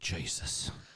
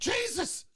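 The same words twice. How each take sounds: First: It is said as a low grunt. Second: It is said loudly and excitedly.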